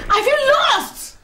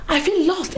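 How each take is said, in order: First: Higher, slow, drawn-out wail of despair; stretching out feel lost in anguish; wailing lament. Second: Said in the usual way. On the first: Acted. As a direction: wail the words as if all is lost. Repeats lament to Edna.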